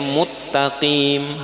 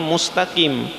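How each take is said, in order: First: The s is merged into a double t. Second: The s is kept before the t. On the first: The speaker calls it wrong. "dibacanya muttaqim" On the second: The speaker calls it right. "harusnya mustaqim"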